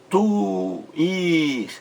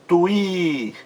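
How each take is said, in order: First: "tuir" split into tu and a long ir; higher-pitched "tuir", vowels held separately; split syllables. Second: "tuir" joined up, with a long stressed i; higher-pitched "tuir", the i held; stressed final syllable. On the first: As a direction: pull "tuir" apart into two drawn-out syllables. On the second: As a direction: say "tuir" in one go, leaning on the ir. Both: Shown as a demonstration. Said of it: "em sílabas diferentes".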